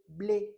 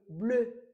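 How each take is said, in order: First: The vowel is said with spread, open lips. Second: The vowel is said with rounded, closer lips. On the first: The speaker calls it wrong. "on ne peut pas dire les stylos blés" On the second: The speaker calls it right. "je ferme un peu"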